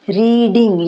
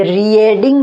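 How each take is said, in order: First: रीडिंग as "ree-ding", long ee only; silent a. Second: रीडिंग broken as "ree-ay-ding"; wrong spelling pronunciation. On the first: Teacher modelling the correct word, रीडिंग as "ree-ding". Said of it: "ई की आवाज़ ज़्यादा आ रही है". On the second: Teacher showing what not to say, रीडिंग as "ree-ay-ding". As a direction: sound the a in रीडिंग as an extra syllable. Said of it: "अब ये रीडिंग नहीं है". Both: Shown as a demonstration.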